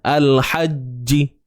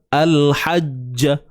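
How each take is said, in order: First: The final j is followed by an i vowel. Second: The final j is followed by an a vowel. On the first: "Baris bawah" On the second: "Ja, bunyi ja kan?"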